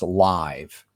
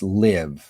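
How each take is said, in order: First: The vowel is long, like 'eye'. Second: The vowel is short, like 'ih'. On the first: It is used as an adjective. "if we use it as a uh, an adjective, it's live" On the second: It is used as a verb. "used as a noun or a a verb, w- it's I, it's live"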